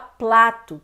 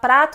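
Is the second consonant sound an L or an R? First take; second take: L; R. First: It is said with an L sound after p. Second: It is said with an R sound after p. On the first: "ela fala plato" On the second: "em vez da pessoa falar prato"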